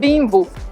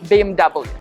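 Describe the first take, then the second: First: The letters are named the Italian way. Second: The letters are named the English way. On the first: The speaker calls it wrong. "ignore Italian pronunciation, not B M W" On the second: The speaker calls it right. "Internationally speaking, this car is B M W"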